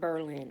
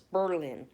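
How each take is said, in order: First: The R sound is short and plain. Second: The R sound is drawn out, like two R's. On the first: The speaker calls it wrong. "It's not Berlin" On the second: The speaker calls it right. "It's pronounced like it has two R's"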